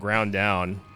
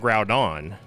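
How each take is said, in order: First: The name ends with a 'down' sound. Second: The name ends with an 'on' sound. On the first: The speaker calls it right. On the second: The speaker calls it wrong.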